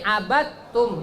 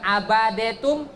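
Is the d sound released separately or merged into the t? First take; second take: merged; released. First: The d merges straight into a double t. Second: The d is released with a vowel before t. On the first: The speaker calls it right. "tapi abattum, masuk ke ta-nya langsung" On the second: The speaker calls it wrong. "Bukan abadetum"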